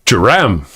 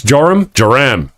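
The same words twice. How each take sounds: First: "Joram" lower, said /ʃəɹæ̃m/ with a flat a; settled name try. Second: "Joram, Joram" said slowly, trying first /ʒɔɹəm/ then /ʒəɹæm/; slow name practice. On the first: Practising a viewer's name, settling on a lower take. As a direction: land "Joram" low, as "sha-RAM". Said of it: "I can do this". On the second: Practising a viewer's name, slow and careful. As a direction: sound out "Joram" twice, testing it. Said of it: "I'm gonna say this". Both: Shown as a demonstration.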